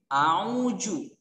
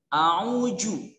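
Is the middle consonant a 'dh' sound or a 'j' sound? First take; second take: j; j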